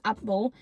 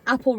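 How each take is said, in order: First: "apple" in a friend's odd pronunciation; imitated pronunciation. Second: Said in the usual way. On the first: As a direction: mimic the friend's peculiar way of saying "apple". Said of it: "She says apple". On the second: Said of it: "Vic doesn't say apple, right?".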